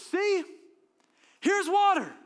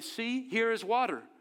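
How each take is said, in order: First: It is said in an excited, exclaiming way. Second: It is said in a flat, plain way.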